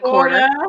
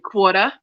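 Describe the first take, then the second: First: The R sounds are pronounced in the word. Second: The R sounds are dropped from the word. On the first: "instead of" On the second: "we just don't pronounce the R's at all"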